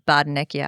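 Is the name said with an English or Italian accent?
English. The name is said with an English accent. The speaker calls it wrong. "It just sounds way better than"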